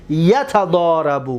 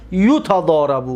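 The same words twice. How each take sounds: First: Drawn-out یتضارب with a on the first syllable; active vowel pattern. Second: U on the first syllable of یتضارب, long middle a; passive vowel pattern. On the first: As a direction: start یتضارب with "ya": yatadarabu. (تلفظ معلوم یتضارب با فتحه: «یَتَضارَبُ») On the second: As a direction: start یتضارب with "yu": yutadarabu. (تلفظ مجهول یتضارب با ضمه: «یُتَضارَبُ») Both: Shown as a demonstration.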